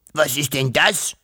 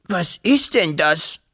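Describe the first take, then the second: First: Lightly voiced puzzled dragon, rising on DAS; baffled dragon hiss. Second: Slow, higher dragon voice leaning on IST; baffled dragon hiss. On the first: Dragon seeing a house for the first time, baffled hiss. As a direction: ask with a touch of dragon hiss, lifting das at the end. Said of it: "fauchte der Drache verblüfft". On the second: Astonished dragon staring at a house, slow baffled hiss. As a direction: draw it out and punch ist in bafflement. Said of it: "fauchte er noch einmal". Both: A narrator's reading.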